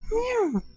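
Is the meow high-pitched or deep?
high-pitched. It is a high falsetto imitating his roommates.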